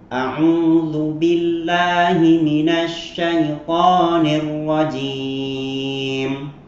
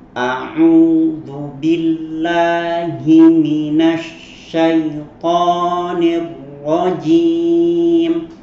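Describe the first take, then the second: First: It is recited fairly fast. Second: It is recited slowly.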